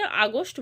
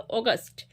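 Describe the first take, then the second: First: "আগস্ট" with opening aa, then o: aa-gost; common mispronunciation. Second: "অগাস্ট" with opening o, then aa: o-gaast; corrected pronunciation. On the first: Teacher quoting what many pupils say, "আগস্ট" mispronounced as aa-gost. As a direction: say "আগস্ট" as aa-GOST, vowels swapped. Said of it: "অনেকে এটাকে আগস্ট বলো". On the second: Teacher correcting pupils, "অগাস্ট" pronounced as o-gaast. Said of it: "কিন্তু এটা উচ্চারণ হবে অগাস্ট". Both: Shown as a demonstration.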